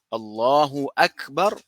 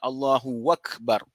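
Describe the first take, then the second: First: The second word starts with a glottal stop. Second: The second word starts with a w sound.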